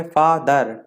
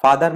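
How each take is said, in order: First: फादर broken slowly into fa - ther; फादर with a clear gap between its syllables; syllables separated. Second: Said in the usual way. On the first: Shown as a demonstration. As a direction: say फादर in two separate beats. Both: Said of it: "two syllable में अलग-अलग लेना पड़ता है".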